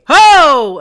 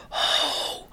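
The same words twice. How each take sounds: First: Big loud holler, pitched up; shouting. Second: Soft, airy, voiceless call; whispering. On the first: Children chasing birds from the orchard, shouting. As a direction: holler to chase the birds away. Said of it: "ze schreeuwen van". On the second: Voiceless children failing to scare birds, whispering. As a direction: feeble whispered holler, no voice left. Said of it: "En ze fluisteren". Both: A narrator's reading.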